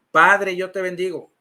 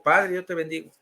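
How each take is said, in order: First: Lightly acted, firm model phrase; measured priest's prompt, lightly imitated; priest leading a repetition. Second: Subdued echo of the priest; lightly acted, meek response; obedient repetition. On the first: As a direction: lead the blessing for another to repeat. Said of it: "A ver, repite conmigo". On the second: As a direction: repeat the blessing dutifully, without force. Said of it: "Y yo digo".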